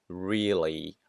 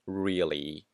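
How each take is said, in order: Both takes have the same delivery.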